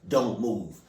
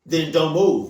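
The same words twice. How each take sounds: First: Said in the usual way. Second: Louder, higher, punching move; firm emphatic command. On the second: Real, not acted. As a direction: put your foot down on it. Same advice said louder.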